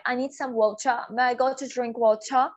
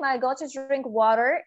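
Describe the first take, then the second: First: Slow British take, "water" as "wau-cha"; British ch-like T, no final R in "water"; British English. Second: Slow American take, "water" as "waa-rer"; American tapped T and curled final R in "water"; American English. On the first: Teacher asks to drink water, British English demo. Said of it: "मैं British English बोल रही हूँ". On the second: Teacher asks to drink water, American English demo. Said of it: "But in American". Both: Shown as a demonstration.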